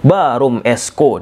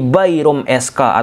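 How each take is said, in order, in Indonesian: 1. SK diucapkan sebagai satu kata, Esko. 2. SK dieja sebagai dua huruf.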